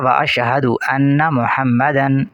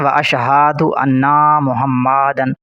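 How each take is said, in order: First: No sounds are drawn out. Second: Several sounds are drawn out. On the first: The speaker calls it right. "तीनों को बिल्कुल नहीं खींचा जाएगा" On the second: The speaker calls it wrong. "अक्सर लोग पढ़ते हैं"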